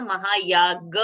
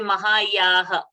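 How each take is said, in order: First: The last consonant is a g sound. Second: The last consonant is an h sound. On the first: The speaker calls it right. "Mahayaga only should come out there, the Ga sound" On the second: The speaker calls it wrong. "not to say Mahayaha"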